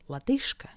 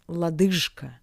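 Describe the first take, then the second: First: The consonant before k is a voiceless sh. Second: The consonant before k is a voiced zh. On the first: The speaker calls it right. "sounds like its paired consonant Sh" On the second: The speaker calls it wrong.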